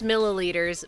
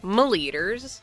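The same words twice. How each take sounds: First: The word is pronounced in the normal way. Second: The word is pronounced in a silly, distorted way. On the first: "I know it's milliliters" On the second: "I say them like milliliters because it's silly"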